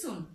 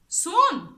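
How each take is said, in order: First: The word is said flat and calm. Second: The word is said forcefully, with angry exclamation. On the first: "This is soon" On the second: "the pronunciation will be soon"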